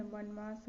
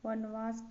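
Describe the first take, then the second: First: वनवास as the accepted form; correct pronunciation. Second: वनवास with v in the middle; wrong pronunciation. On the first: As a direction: present वनवास as the right form. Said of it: "होगा". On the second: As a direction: say वनवास as van-vaas. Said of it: "वनवास गलत है". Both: Shown as a demonstration.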